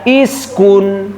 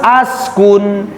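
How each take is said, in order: First: The word begins with an i vowel. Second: The word begins with an a vowel. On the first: "jangan dibaca iskun" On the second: "jangan dibaca ... askun"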